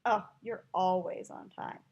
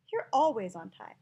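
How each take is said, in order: First: Dry mock praise, vowels stretched; sarcastic. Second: Said in the usual way. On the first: Shown as a demonstration. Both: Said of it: "tell the difference between those two".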